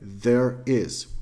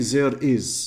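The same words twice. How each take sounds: First: The first sound is a clear 'th'. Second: The first sound is not a real 'th'. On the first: The speaker calls it right. "we say the, there is" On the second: The speaker calls it wrong. "we don't say there is"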